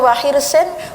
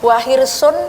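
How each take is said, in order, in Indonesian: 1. Kata itu berakhir dengan huruf vokal i diikuti n. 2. Kata itu berakhir dengan huruf vokal u diikuti n. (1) "semuanya tanwin kasroh semuanya" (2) "Semuanya tanwin dumah"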